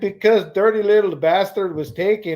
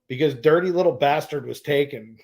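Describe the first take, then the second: First: It is said in an imitated foreign accent. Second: It is said in the speaker's ordinary accent.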